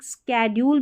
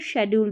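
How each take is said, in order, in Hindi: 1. यह शब्द sk ध्वनि से शुरू होता है। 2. यह शब्द sh ध्वनि से शुरू होता है। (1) "दोनों तरीके से प्रोनाउंस करते हैं आजकल" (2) "दोनों तरीके से प्रोनाउंस करते हैं आजकल"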